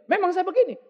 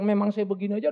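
First: "Memang saya begini" said high and loud, spoiling for a fight; a defiant, confrontational "Memang saya begini."; picking a fight. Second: Said in the usual way. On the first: Retold or imitated. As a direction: snap it back like you want to start a quarrel. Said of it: "Udah kayak mau ngajak berantem". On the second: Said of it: "Mau ngomong bilang".

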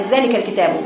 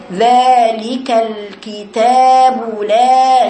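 First: "ذلك الكتاب" with no elongation at all; snatched madd. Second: Very slow "ذلك الكتاب لا", every madd sustained; full elongation. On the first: Retold or imitated. Teacher imitating how they read it, madd stolen. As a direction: rush through the long vowels of "ذلك الكتاب". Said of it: "مفيش مد، اختلاس حروف المد". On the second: Shown as a demonstration. Teacher showing pupils the long "لا", slow sustained recitation. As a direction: hold the ā of "لا" right out. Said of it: "شوفي لا".

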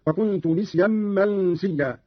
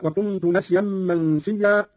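First: "نسيا" pronounced nisyan; i in place of a in "نسيا"; kasra on nun. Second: Said in the usual way. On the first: Shown as a demonstration. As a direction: slowly recite "نسيا" with i after the n. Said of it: "قرأ قالون بكسر النون من نسيا". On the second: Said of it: "بكسر النون من نسيا".

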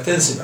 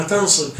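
First: تنسب said with a light plain س; self-correction. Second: تنصب said with an emphatic heavy ص by mistake; the wrong word تنصب with a heavy emphatic s; slip of the tongue. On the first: Teacher corrects himself before students, light س in تنسب. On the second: Teacher misspeaks to students, heavy emphatic ص in تنصب. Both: Real, not acted. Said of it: "عفوًا".

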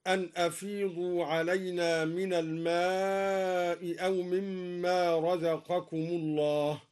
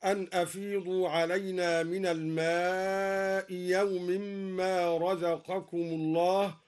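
First: Slow recitation, glottal stop starting أو; long aa in الماء, then sound أو with hamza; second hamza kept. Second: Long aa in الماء, then yaw; hamza becomes yaa. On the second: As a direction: recite الماء يوم as al-maa'i yaw-mimmaa. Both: Shown as a demonstration. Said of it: "أبدل الدوري الهمزة الثانية ياء".

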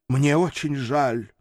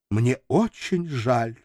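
First: Strained, slow apology. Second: Slow, on the verge of tears; almost sobbing. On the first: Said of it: "не своим голосом выдавил". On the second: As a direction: hold back tears as you say it. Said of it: "едва не рыдая". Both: Acted.

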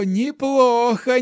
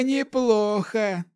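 First: Put-on slow, high amused old man; laughing old hermit. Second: Slow, high amused praise, falling; laughing old hermit. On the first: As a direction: relish the praise with a chuckle. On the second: Acted. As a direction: savor it, amused. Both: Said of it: "рассмеялся отшельник Вэй".

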